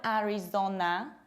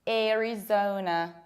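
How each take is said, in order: First: The first vowel does not sound like air. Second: The first vowel sounds like air. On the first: The speaker calls it wrong. "it's not Arizona" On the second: The speaker calls it right. "It needs to be pronounced like air"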